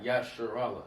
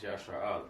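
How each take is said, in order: First: Yasharallah run into a single word; mispronounced Yasharallah. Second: "Yashar Allah" in two distinct words; correct Yashar Allah. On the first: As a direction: say "Yasharallah" blended, the R starting RAL. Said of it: "It's not Yasharallah". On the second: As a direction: say "Yashar Allah" as ya-SHAR, then AH-la. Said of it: "it's Yashar Allah". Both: Shown as a demonstration.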